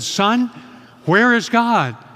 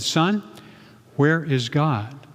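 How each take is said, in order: First: It is said louder still, nearly shouting. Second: It is said at a normal, quiet volume.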